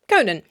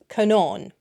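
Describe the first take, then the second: First: The second vowel is short. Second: The second vowel is long. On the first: The name is written without an accent mark. "if you don't put a fada on the name Conan, as in Conan O'Brien, you pronounce it Conan" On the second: The name is written with an accent mark. "with a fada on the A, is not Conan, it's Conon"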